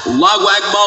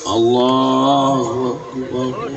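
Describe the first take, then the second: First: It is said in a loud, booming voice. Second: It is said in a soft, slow voice.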